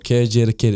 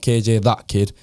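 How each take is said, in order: First: The middle word is said as 'the'. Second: The middle word is said as 'that'. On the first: The speaker calls it right. "So K J the kid" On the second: The speaker calls it wrong. "It's not K J that kid"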